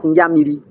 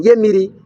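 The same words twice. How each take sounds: First: "Nyamiri", opening on nya instead of ye; corrupted pronunciation. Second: "Yemiri", starting on ye, before the corruption; original pronunciation. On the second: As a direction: say "Yemiri" with a "ye" opening syllable. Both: Shown as a demonstration. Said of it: "corrupted the word to refer".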